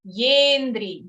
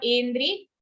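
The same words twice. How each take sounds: First: "yendri" with a firm y at the start; clear y. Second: "endri" starting on a bare e; missing y. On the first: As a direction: lean on the y of "yendri". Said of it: "Ear needs to be clear". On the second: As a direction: say "endri" with no y before the vowel. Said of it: "Not endri". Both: Shown as a demonstration.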